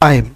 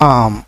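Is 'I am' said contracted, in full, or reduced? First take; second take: contracted; reduced. First: It is said as one syllable with the vowel gliding. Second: It is said as one short syllable, 'am'. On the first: "উচ্চারণটা দাঁড়াচ্ছে আইম" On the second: "সরাসরি আম বলে দেই"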